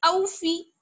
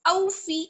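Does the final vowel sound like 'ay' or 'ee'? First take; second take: ee; ee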